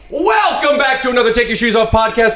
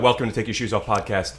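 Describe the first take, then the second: First: It is said with big, high energy. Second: It is said with normal, low energy.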